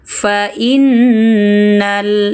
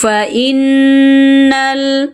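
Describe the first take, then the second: First: Innal with the nn pressed, held, then short; pressed, held nun. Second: Innal with nun held and hummed slowly; nasal hum on innal. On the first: Teacher shows correct innal after student's error. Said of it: "dengung, tekan, tahan, pendek". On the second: Sung, teacher demonstrating the doubled nun to a student. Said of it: "nun bertasdid dengungkan". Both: Shown as a demonstration.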